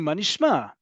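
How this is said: It is said in a bright, upbeat tone. The speaker is glad to see the listener. The speaker calls it right. "The same upbeat"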